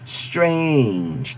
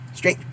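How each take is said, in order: First: The word is said slowly and stretched out. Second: The word is said quickly and clipped short. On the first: "They would never say" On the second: "very fast"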